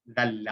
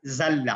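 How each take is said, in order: First: ذل, drawn out with ذ as in this; dhal sound. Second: ذل said as zalla; za, meaning slipped. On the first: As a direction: say ذل with tongue between the teeth. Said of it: "ذال کے ساتھ ہے نا". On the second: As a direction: say ذل with a buzzing z. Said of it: "وہ پھسلا". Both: Shown as a demonstration.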